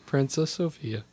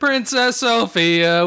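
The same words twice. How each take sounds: First: It is said in a sad, flat way. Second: It is said with lively enthusiasm.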